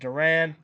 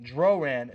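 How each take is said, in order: First: The name is said as Duran. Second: The name is said as Droran. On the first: The speaker calls it wrong. "not Duran" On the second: The speaker calls it right. "Droran, not Duran"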